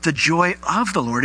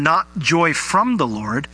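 First: "of" stressed against "from"; contrast on OF. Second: "from" set up for contrast; slow line, contrasting "from". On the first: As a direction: lean on "of" as the correction. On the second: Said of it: "but the joy of the Lord". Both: Shown as a demonstration.

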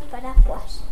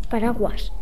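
First: "paraguas" con jota en lugar de G; pronunciación sin G. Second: Said in the usual way. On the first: Shown as a demonstration. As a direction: di "paraguas" cambiando la G por una jota. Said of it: "Entonces diríamos". ("paraguas" pronunciado con sonido de jota) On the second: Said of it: "Si t-, quitamos la G, no podemos decir".

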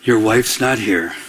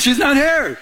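First: Much lower, slow, deliberate voice of God; God's deep voice. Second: Much higher, light teasing reprise; teasing God. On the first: God telling the single man his wife isn't there, low and slow. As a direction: drop low and slow, each word weighed. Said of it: "he said this very clearly to me". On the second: Preacher replaying God's words to the crowd, high and teasing. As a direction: lift it high and playful. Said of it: "It's like". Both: Retold or imitated.

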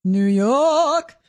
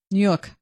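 First: York drawn out in New York style; New York accent. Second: Said in the usual way. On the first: Shown as a demonstration. Co-host saying New York on request, exaggerated New York accent. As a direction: stretch York long with a New York vowel, dropped r. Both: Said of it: "Say, uh".

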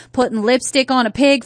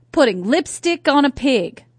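First: Southern US accent. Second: Said in the usual way. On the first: Shown as a demonstration. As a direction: say it with a Southern US twang. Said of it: "say it in your Southern accent".

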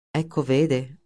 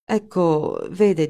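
First: Mild sarcastic echo of "Ecco, vede", a touch lower. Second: Said in the usual way. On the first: A narrator's reading. Linder mocks Wegener's stammered reply, mildly sarcastic. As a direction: throw "Ecco, vede" back at him, lightly mocking. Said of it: "sbottò Linder sarcastico". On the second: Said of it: "disse, e si interruppe".

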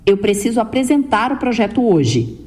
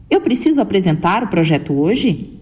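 First: Level line with a firm falling finish on "hoje"; firm statement tune. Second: "Eu" lifted at the start, "hoje?" rising at the end; question tune. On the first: Speech coach showing listeners a firm statement ending down on "hoje". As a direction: state it flatly, dropping and settling on "hoje". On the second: Speech coach demonstrating to listeners the rising question tune on "hoje?". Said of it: "Veja essa pergunta". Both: Shown as a demonstration.

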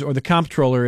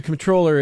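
First: "comptroller" as COMP-troller; "comptroller" with front stress, as the other variant; stress on first syllable. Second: "comptroller" as com-TROLL-er; "comptroller" with late stress, as one variant; stress on second syllable. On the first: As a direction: put the weight on COMP in "comptroller". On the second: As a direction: put the weight on TROLL in "comptroller". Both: Shown as a demonstration. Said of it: "how they pronounce it".

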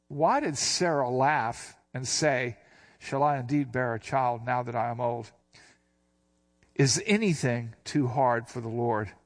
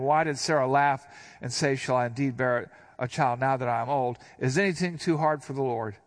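First: Slow reading. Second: Said in the usual way. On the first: Shown as a demonstration. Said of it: "look at this again". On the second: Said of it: "So verse thirteen".

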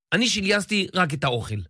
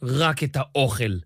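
First: Said in the usual way. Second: Slow sneering echo; drawn-out scoffing repeat; mocking. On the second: A narrator's reading. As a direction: throw his words back with scorn. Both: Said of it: "מלגלג הונזה".

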